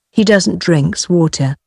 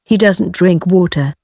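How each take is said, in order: First: "drinks" said with a final S; deliberate wrong form, "drinks" ending in S; extra S example. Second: Said in the usual way. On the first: Shown as a demonstration. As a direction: sound the added S ending on "drinks". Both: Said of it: "Be careful with the S".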